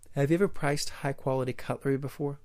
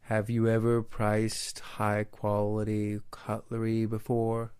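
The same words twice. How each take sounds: First: It is spoken at a natural, clear, moderate pace. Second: It is spoken in an exaggerated, overly slow way. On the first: The speaker calls it right. "Just say" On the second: The speaker calls it wrong. "Don't sound like an idiot. Don't say"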